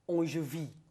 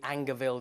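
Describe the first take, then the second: First: The name is pronounced with a French sound. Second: The name is pronounced with an English sound. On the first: "might be pronounced Angevie because it's French" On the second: "our pronunciation will be Angerville there"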